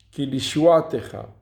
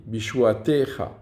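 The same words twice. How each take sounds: First: "Ki Lishuatecha" stressed on the "a" before "te"; stress moved off TE. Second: "Bishuatecha" stressed on the next-to-last syllable, "te". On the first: Teacher contrasting a second example, "Lishuatecha" accented before the "te". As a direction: hit "a" in "Lishuatecha", let "techa" fall away. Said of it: "l'accent tonique n'est pas sur le tav". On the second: Teacher showing the tonic accent, "Bishuatecha" stressed on "te". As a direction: lean on the "te" in "Bishuatecha". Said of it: "il est sur le T". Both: Shown as a demonstration.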